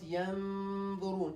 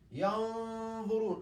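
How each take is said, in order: First: The n sound is light and thin. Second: The n sound is heavy and full. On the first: The speaker calls it wrong. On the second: The speaker calls it right. "It's heavy because it's followed by a heavy letter"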